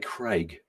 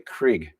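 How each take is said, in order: First: The name is said with a New Zealand accent. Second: The name is said with an American accent. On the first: "I would say Craig from New Zealand" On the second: "in America they tend to, tend to say Craig"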